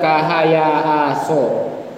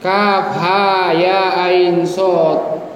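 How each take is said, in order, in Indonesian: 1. Setiap huruf dibaca sebagai bunyi singkat. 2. Setiap huruf dibaca dengan nama lengkapnya. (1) "Kalau tidak tahu bacanya mungkin dibaca" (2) "awal surah Maryam"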